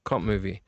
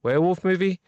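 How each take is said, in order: First: "cop movie" said low and soft; dropping low. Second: Rising high. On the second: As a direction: lift "Werewolf movie" up high. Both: Shown as a demonstration. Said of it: "Werewolf movie and a cop movie".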